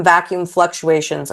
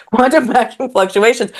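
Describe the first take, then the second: First: Said in the usual way. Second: Amused, higher, laughing through the term; laughing repeat. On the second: Real, not acted. Guest laughing at her own physics tangent, amused. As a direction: chuckle at your own jargon.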